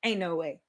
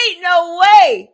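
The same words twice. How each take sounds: First: "ain't no way" tossed off lower and much softer; casual, quiet "ain't no way"; slang aside. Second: "Ain't no way" drawn out slowly and much louder; "Ain't no way" as a loud, slow exclamation; loud disbelief. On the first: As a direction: murmur "ain't no way" as quick slang. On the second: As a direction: belt out "Ain't no way" in astonishment. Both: Shown as a demonstration. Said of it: "Like the slang version".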